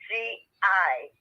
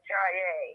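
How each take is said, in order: First: A glottal break separates the two syllables. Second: The word is said without a glottal break. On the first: The speaker calls it right. "there's your glottal separating syllables" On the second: The speaker calls it wrong. "pronounces that J A. That's wrong"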